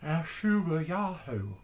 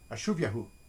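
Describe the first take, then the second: First: It is said in a drawling Texan-style accent. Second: It is said plainly, without the put-on accent. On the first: "in my Hank Hill kind of fashion" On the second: "I'm going to try it again"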